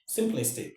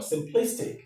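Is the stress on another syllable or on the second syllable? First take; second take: another syllable; second syllable. First: The stress falls on a different syllable. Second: The stress falls on the second syllable. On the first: The speaker calls it wrong. "not simplistic" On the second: The speaker calls it right. "This is how we go"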